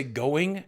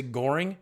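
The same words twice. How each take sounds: First: Said in the usual way. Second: "goring" said for going, with an R in the middle; intrusive R in going. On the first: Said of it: "and I'll say goring". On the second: Shown as a demonstration. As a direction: slip an R into "goring", meaning going. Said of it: "I'll try to say going".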